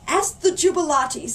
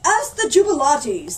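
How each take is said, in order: First: Said in the usual way. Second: Loud, high booming order; mayor thundering the idea as his own. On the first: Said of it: "said an old woman". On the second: Acted. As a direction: boom it like you thought of it. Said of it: "thundered the mayor".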